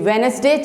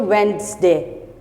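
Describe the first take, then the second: First: The d and middle e are sounded. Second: The d and middle e are silent. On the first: "the Wednesday change into" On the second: "These both are silent"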